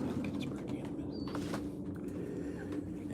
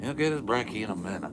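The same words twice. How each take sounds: First: Hushed whisper, slowed down. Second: Louder, higher and fast; quick and bright. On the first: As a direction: whisper it slowly, barely voiced. Soft aside to the dog. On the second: Same words, said out loud. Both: Real, not acted.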